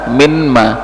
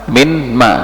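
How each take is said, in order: The two takes are said the same way.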